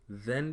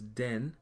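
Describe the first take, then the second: First: It is said with an English th sound. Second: It is said with a Patois hard d.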